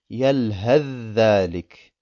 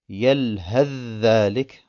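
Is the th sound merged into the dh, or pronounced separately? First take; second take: merged; merged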